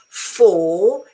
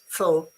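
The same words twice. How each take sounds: First: It is said with a full, stressed vowel. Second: It is said with a weak, reduced vowel. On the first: "for if I stress" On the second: "for if I don't"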